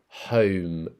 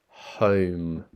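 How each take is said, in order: Both takes have the same delivery.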